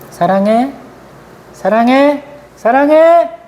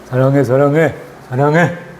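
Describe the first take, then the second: First: Each repetition grows stronger than the last. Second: All repetitions keep the same level tone.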